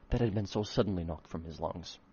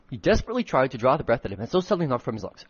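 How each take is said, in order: First: Said in the usual way. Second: Fast, louder reread of the line; rushed reread. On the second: Shown as a demonstration. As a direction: hurry through the retake. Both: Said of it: "trying really fucking hard to make the right tone".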